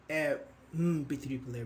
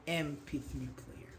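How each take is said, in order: First: "M" hummed as bare "mm" after a; wrong article and sound. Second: "M" said as "em" in M P three player; vowel start "em". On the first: Teacher shows what we don't say, "a mm-P three". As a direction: say M as a consonant "mm", not "em". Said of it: "We don't say". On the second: Teacher models the right sound, "em P three". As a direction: open M with a clear e vowel. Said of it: "We say M". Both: Shown as a demonstration.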